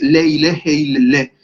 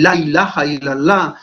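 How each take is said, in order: First: The vowels are pronounced as E sounds. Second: The vowels are pronounced as open A sounds.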